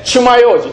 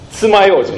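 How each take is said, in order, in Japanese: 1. 最初の音節は 'chu' です。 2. 最初の音節は 'tsu' です。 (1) "ちゅまようじとは言わないでしょ" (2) "つまようじなんですよ"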